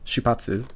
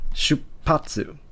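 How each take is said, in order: First: The p sound is short with no catch. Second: The p sound is held with a brief catch. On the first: The speaker calls it wrong. "instead of it being that" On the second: The speaker calls it right. "you're saying shupatsu"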